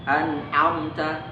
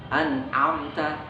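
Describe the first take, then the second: Both takes have the same delivery.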